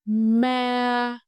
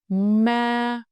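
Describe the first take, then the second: First: The pitch stays high and level throughout. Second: The same.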